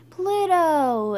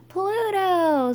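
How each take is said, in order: First: High, loud crowd shout, drawn out; yelled cheer. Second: Very high, loud stretched cheer; screamed cheer. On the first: The underdogs answer Skunk's cheer, storybook yell. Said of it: "yelled the underdogs". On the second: The underdogs answer louder for Pluto, screamed cheer. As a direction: top the last shout with a storybook scream. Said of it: "screamed the underdogs". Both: A narrator's reading.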